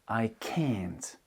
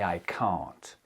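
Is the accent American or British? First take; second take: American; British. First: It is said with an American accent. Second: It is said with a British accent. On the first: "Là où un américain dira" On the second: "Moi, j'ai un accent britannique. Donc, je vais dire"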